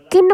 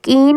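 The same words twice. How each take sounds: First: किन with a quick short i; short vowel. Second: कीन with a stretched ee; long vowel. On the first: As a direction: keep the i brief in किन. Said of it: "किन बोल रहे हैं ना". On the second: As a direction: draw out the ee in कीन. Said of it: "कीन करके तो नहीं बोल रहे". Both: Shown as a demonstration.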